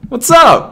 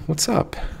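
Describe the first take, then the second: First: It is said loudly and with high energy. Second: It is said in a softer, quieter voice.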